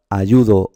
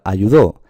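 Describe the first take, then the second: First: "ayudo" with a strong middle "yu"; stress on YU. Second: "ayudó" with a loud last syllable "dó"; stress on final syllable. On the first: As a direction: lean on the second syllable of "ayudo". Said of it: "cuándo se pronuncia ayudo". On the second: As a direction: punch the end of "ayudó". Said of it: "cuándo se pronuncia". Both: Shown as a demonstration.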